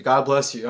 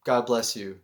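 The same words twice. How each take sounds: First: Said in the usual way. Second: Wondrous blessing. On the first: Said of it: "every time someone sneezes". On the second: Retold or imitated. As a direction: say it gently, like a sincere blessing. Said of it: "it was this wondrous thing".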